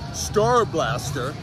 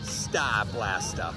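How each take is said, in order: First: It is said in a standard, non-New England accent. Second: It is said in a New England accent. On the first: The speaker calls it wrong. "You might see it as" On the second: The speaker calls it right. "it's actually pronounced"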